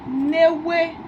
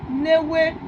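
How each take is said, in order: The two takes are said the same way.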